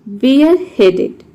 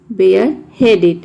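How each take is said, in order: First: Slow demo word. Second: Said in the usual way. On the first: Shown as a demonstration. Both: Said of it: "word number सत्रह है".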